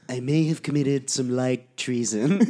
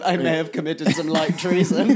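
First: It is said in an imitated character voice. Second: It is said in the speaker's ordinary voice.

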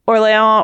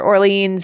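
First: The name is pronounced the French way. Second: The name is pronounced the English way. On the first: "Which is the French pronunciation" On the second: "like the anglicized pronunciation"

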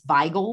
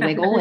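First: The name is said the original German way. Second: The name is said the local Pittsburgh way. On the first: This is the correct original pronunciation. "If you really want to pronounce it correctly" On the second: This is the accepted local pronunciation. "You can say wiggle"

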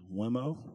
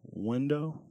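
First: The word has an 'm' sound in the middle. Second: The word has 'n' and 'd' sounds in the middle. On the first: The speaker calls it wrong. "she says Wemo" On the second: The speaker calls it right. "instead of window"

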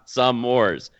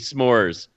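First: It is said as two syllables. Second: It is said as one syllable. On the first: The speaker calls it wrong. "not some Moors" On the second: The speaker calls it right. "It's supposed to be s'mores"

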